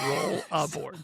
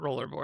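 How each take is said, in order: First: It sounds like roll, then a separate 'aboard'. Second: It sounds like roller board, with an 'er'. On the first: The speaker calls it right. "It's roll aboard because you roll it aboard" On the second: The speaker calls it wrong. "It's not rollerboard"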